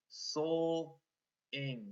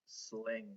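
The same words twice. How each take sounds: First: "Sol, ing" split into blend sl and rhyme ing; sounded out. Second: Said in the usual way. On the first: Shown as a demonstration. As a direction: hold "Sol", pause, then "ing". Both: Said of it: "We have a blend in our rhyme".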